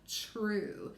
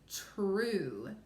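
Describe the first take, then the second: First: It begins with a quick ch-like sound. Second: It begins with a slow, clear t-r blend. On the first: The speaker calls it wrong. "not true. That's how we say it" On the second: The speaker calls it right. "if we really stretched it out and said it correctly"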